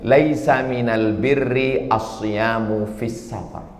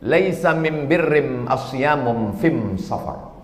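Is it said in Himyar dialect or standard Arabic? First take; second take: standard Arabic; Himyar dialect. First: It uses standard Arabic with 'al' forms. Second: It uses the Himyar dialect with 'am' forms.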